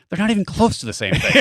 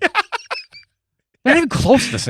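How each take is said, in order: First: It is said in the speaker's own voice. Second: It is said imitating Chuck's voice.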